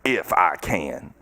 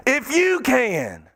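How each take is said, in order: First: Drawn-out, dropped low "if I can"; slow, sunk "if I can". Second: "you" pressed, slow, higher; slow, weighted "you"; stress on YOU. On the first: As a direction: let "if I can" sink slowly, dismissive. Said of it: "slow low contrast take". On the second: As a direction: lean hard on "you" in "If you can". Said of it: "stress on you". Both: Shown as a demonstration.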